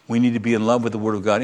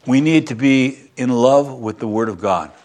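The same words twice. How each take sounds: First: Faster and a little softer, echoing the line; quick quiet echo of the point; quick soft repeat. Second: Said in the usual way. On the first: Shown as a demonstration. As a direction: run the line back quickly, half under the breath.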